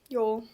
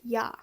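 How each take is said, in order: First: The word ends in a relaxed oh vowel. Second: The word ends in a clear ah vowel. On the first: "It's more like yo. Like it's just in the moment" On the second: "not very distinctively pronounced, ja"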